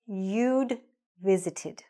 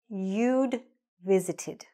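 First: A clear D sound follows 'you'. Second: The same.

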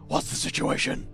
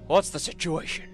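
First: It is spoken in a deep, gravelly put-on voice. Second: It is spoken in an ordinary speaking voice.

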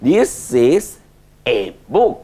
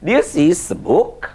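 First: The word 'a' is stressed and full. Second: The word 'a' is unstressed and weak.

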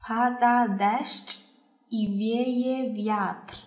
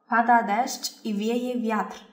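First: It is said slowly and carefully. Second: It is said at normal conversational speed.

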